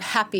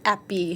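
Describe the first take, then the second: First: The word begins with an audible H sound. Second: The word begins without any H sound. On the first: The speaker calls it right. "that H sound is hard for native French speakers" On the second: The speaker calls it wrong. "you'll get appy"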